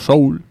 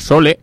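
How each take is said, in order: First: The name is pronounced with English sounds. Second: The name is pronounced with Spanish sounds.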